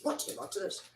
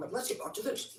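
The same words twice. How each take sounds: First: Higher, chirpy repeat; high playful call back to topic; high sing-song. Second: Breathy whisper to herself; soft self-directed whisper. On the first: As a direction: lift it up high and bright. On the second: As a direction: whisper it under your breath. Repeats to get back on topic. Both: Real, not acted.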